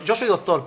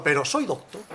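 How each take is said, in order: First: "doctor" with its final r sounded; full "doctor", r at the end; final r kept. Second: "doctor" said as "docto", no final r; questioning "doctor", ending on a bare o; final r dropped. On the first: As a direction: say "doctor" complete, ending in -or. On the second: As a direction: take the r off "doctor". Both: Shown as a demonstration. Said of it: "le quito la R".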